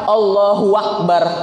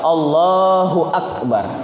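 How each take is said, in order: First: A w sound comes before akbar. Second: No w sound comes before akbar. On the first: The speaker calls it wrong. "Kalau Allahu akbar itu seperti ada waw di tengah-tengah. Itu tidak boleh" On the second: The speaker calls it right. "Harusnya apa?"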